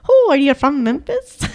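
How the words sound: The Irish accent is heavily overdone. "That's a little too much"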